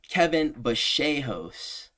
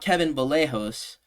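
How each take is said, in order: First: The name is said with an Argentinian pronunciation. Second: The name is said with an English-style pronunciation. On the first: The speaker calls it right. "I suppose that is the proper pronunciation" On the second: The speaker calls it wrong. "not Kevin Vallejos"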